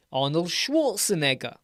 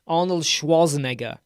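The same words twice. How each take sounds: First: "Schwarzenegger" with the r sounded, SHWORTS-en-egger; rhotic Schwarzenegger. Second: "Schwarzenegger" with no r, SHWAH-zen-egger; non-rhotic Schwarzenegger. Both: Shown as a demonstration. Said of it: "some people say Schwarzenegger and some say".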